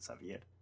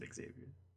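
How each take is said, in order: First: The name is pronounced with Spanish sounds. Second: The name is pronounced with English sounds. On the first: The speaker calls it right. "Technically, you're supposed to pronounce it Xavier" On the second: The speaker calls it wrong. "You're not even supposed to pronounce it Xavier"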